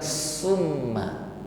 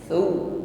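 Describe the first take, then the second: First: It begins with a hissing s sound. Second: It begins with a soft th sound. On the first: The speaker calls it wrong. "Bukan summa" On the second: The speaker calls it right. "tetapi thu"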